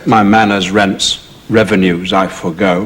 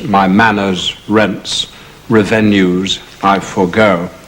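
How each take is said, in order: First: Revenues has its modern stress, breaking the verse. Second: Revenues has an old stress that fits the verse. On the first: It goes against the rhythm of the verse. The speaker calls it wrong. "you can't say" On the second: It keeps the stately rhythm of the verse. The speaker calls it right. "archaic pronunciations"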